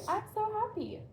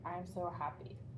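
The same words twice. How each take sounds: First: It is said with lively, happy expression. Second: It is said flatly, without much expression. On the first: The speaker calls it right. "would it be better for me to say" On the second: The speaker calls it wrong. "Or would it be better for me to say"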